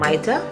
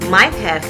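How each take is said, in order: First: 'Have' is reduced to a short 'a' sound. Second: 'Have' is said in full.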